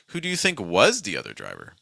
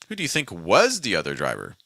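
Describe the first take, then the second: First: The word think carries the main stress. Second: The same.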